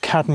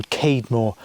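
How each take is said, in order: First: "Cadmore" with short a, as in "cad"; short-A pronunciation. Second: "Cademore" with long a, as in "cade"; long-A pronunciation. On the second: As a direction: say "Cademore" with CAYD first. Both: Shown as a demonstration. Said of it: "It's either pronounced".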